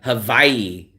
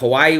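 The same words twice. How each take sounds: First: The middle consonant is a V sound. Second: The middle consonant is a W sound. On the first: This is how locals say it. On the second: This is how outsiders say it.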